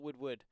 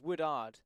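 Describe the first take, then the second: First: The middle has a w sound. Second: The middle has no w sound. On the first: The speaker calls it wrong. "not Woodward" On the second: The speaker calls it right. "it's Woodard"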